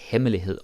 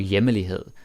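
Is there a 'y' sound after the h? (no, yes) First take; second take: no; yes. First: No 'y' sound follows the h. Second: A 'y' sound follows the h. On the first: The speaker calls it right. "even though it's not there" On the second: The speaker calls it wrong. "They say it as hjemlig or hjemmelighed"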